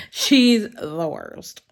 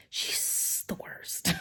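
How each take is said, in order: First: Slow, laughing through it, louder; laughing gripe. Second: Whispered gripe. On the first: Repeating the gripe about Lynette to viewers, laughing. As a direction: crack up as you say it again. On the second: Whispering to viewers about reading buddy Lynette, hushed gripe. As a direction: whisper it, slow and secret. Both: Real, not acted.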